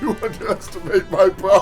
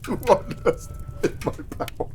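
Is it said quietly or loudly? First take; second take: loudly; quietly. First: It is said loudly and clearly audible. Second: It is said quietly, barely audible.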